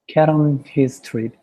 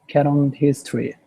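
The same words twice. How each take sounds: The two takes are said the same way.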